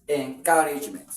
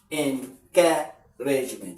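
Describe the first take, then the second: First: Said in the usual way. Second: Encouragement drawn out in separate syllables; half-speed "Encouragement" with breaks between syllables. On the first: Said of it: "this is ca". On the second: Shown as a demonstration. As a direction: sound out "Encouragement" slowly, piece by piece. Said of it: "Three, four syllables now".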